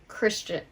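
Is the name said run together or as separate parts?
run together. The two parts are said fast, run together. "But like together"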